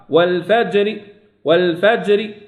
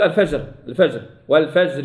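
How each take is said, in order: First: Measured والفجر with bounced j before r; qalqala on jim. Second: الفجر with j run into r; no qalqala. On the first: Teacher correcting students, bouncing jim. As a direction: echo the j in والفجر, then release the r. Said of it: "القلقلة". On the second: Teacher showing what not to say, flat unechoed jim. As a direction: leave the j in الفجر unbounced, as a mistake. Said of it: "ما يقول". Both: Shown as a demonstration.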